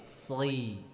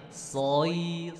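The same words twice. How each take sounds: First: The syllables are repeated at a fast pace. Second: The syllables are repeated at a slow pace. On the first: "baru dicepetin" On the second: "latihan kasrohnya gini"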